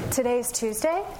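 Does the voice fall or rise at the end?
rise. The voice rises at the end. The speaker sounds unsure, as if asking. The speaker calls it wrong.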